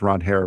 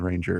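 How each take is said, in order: First: The name is said as two syllables, 'Ron Hare'. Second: The name is said like the English word 'ranger'. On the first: This is how the name is actually pronounced. "That's how you pronounce his name" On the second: This common version is tolerated. "but I don't mind Ranger"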